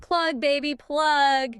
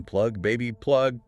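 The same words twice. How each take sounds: First: High, loud Texan tycoon shout; booming oil tycoon drawl. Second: Lightly shouted quote, pitch rising; half-hearted shout of the slogan; mock shout. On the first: Retold or imitated. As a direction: belt it like a brash oil baron. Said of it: "tried to sound like a Texan oil tycoon". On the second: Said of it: "A refined French intellectual shouting".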